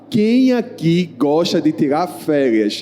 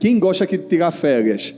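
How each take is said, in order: First: The question is asked very slowly. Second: The question is asked at a normal pace.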